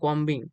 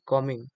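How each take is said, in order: First: The b sound is clearly pronounced. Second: The b sound is left silent. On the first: The speaker calls it wrong. "कॉम्बिंग नहीं होगा" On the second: The speaker calls it right. "इसका सही pronounce कॉमिंग ही है"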